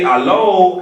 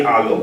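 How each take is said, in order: First: "Hello" thrown up high and loud, then falling; high call hello. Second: "Hello" answered low and falling; low answering hello. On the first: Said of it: "So I, I say". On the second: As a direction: bring "Hello" down as the reply. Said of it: "and then you say". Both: Shown as a demonstration.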